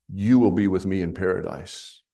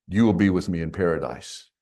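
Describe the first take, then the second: Both takes have the same delivery.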